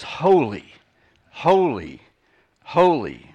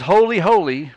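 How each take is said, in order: First: "holy, holy, holy" with a pause after each word; super emphasis. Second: "holy, holy" louder, run together as one phrase; emphatic double. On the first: Preacher showing the Hebrew superlative, each "holy" weighty and separate. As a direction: land each "holy" separately, firm and falling. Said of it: "It was a super emphasis". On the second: Preacher showing a lesser repetition, "holy, holy" loud and joined. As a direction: say "holy, holy" strongly without a break between. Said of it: "it's not just". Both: Shown as a demonstration.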